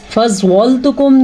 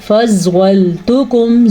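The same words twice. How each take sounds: First: فَضَّلْتُكُمْ with its ل made heavy; فَضَّلْتُكُمْ with a wrongly heavy ل; wrong pronunciation. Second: فَضَّلْتُكُمْ with a heavy ض and a fine, light ل; فَضَّلْتُكُمْ said right, ل kept thin; correct pronunciation. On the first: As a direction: demonstrate the error, a thick ل in فَضَّلْتُكُمْ. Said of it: "نہیں". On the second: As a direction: model فَضَّلْتُكُمْ, ض full, ل light. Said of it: "زوات کو پر، لام کو باریک". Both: Shown as a demonstration.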